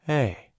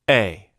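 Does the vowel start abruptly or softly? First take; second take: softly; abruptly. First: The vowel starts gently and gradually. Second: The vowel starts abruptly after silence.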